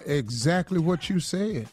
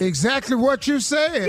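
First: It is said flatly, without enthusiasm. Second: It is said with more enthusiasm.

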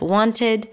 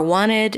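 First: The T after the N is pronounced. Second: The T after the N is dropped. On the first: "instead of wanted" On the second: "or wanted"

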